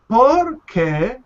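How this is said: The two words are said separately. The speaker calls it wrong. "you you don't say por qué"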